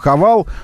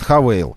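First: The second vowel is a plain a sound. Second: The second vowel is an ei diphthong. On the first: It follows how the name is written. "Глазами мы видим Хавал" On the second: It is how the brand says the name. "а они нам говорят Хавейл"

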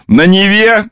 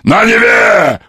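First: It is said in a plain prompting voice. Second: It is said in a drunken, parrot-like voice.

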